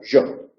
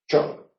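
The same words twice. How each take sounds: First: It starts with a buzzing, voiced zh-like sound. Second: It starts with a hissing, voiceless sh-like sound. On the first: "además la central la hacen vibrante" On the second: "Incluso puede llegar a ser una che"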